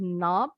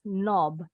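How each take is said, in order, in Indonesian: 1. Vokalnya terbuka dan tidak membulat, seperti 'ah'. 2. Vokalnya diucapkan dengan bibir membulat. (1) "This is how the Americans pronounce it" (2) "while the British say it as knob"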